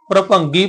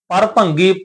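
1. ਰ ਸਿੱਧਾ ਪ ਨਾਲ ਜੁੜਿਆ ਹੋਇਆ ਹੈ। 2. ਰ ਪ ਤੋਂ ਬਾਅਦ ਇੱਕ ਵੱਖਰਾ ਅੱਖਰ ਹੈ। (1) "ਅੱਧੇ ਰਾਰੇ ਦਾ ਉਚਾਰਨ ਕਰਨਾ ਹੈ" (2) "ਇੰਜ ਪੂਰੇ ਰਾਰੇ ਦਾ ਆਪਾਂ ਉਚਾਰਨ ਨਹੀਂ ਕਰਨਾ"

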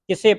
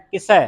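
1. ਸ਼ਬਦ ਦੇ ਅੰਤ ਵਿੱਚ ਬੰਦ 'e' ਸਵਰ ਹੈ। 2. ਸ਼ਬਦ ਦੇ ਅੰਤ ਵਿੱਚ ਖੁੱਲ੍ਹਾ 'ai' ਸਵਰ ਹੈ। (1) "ਉਹ ਇੱਕ ਲਾਂ ਲਾ ਕੇ ਉਚਾਰਨ ਕਰਦੀਆਂ" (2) "ਪਰ ਇਸ ਦਾ ਜਿਹੜਾ ਉਚਾਰਨ ਹੈ ਸੱਸੇ ਦਲਾਵਾਂ ਲੱਗੀਆਂ"

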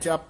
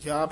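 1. ਸ਼ਬਦ ਵਿੱਚ ਸਵਰ ਛੋਟਾ ਹੈ। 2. ਸ਼ਬਦ ਵਿੱਚ ਸਵਰ ਲੰਮਾ ਹੈ। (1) "ਜਪ ਨਹੀਂ ਕਹਿ ਦੇਣਾ" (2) "ਜਾਪ ਹੀ ਬੋਲਣਾ ਹੈ"

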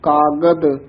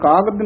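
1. अंतिम व्यंजन साफ़ d की आवाज़ है। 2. अंतिम व्यंजन साफ़ d की आवाज़ नहीं है। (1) "कागद दद्दे दे नाल शुद्ध उच्चारण करना" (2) "कागद नहीं कहना"

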